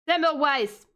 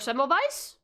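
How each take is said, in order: First: The name is said with English-style sounds. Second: The name is said with German-style sounds. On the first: The speaker calls it wrong. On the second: The speaker calls it right.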